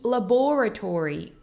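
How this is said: It is said in a British accent.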